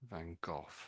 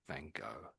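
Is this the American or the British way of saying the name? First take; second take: British; American. First: It ends in a goth-like sound, British style. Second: It is said the common American way. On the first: "So Goth would be how most Brits would say it. Van Gogh, like that" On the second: "Almost all, all Americans would say Van Gogh"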